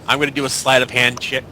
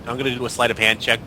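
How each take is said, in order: Both takes have the same delivery.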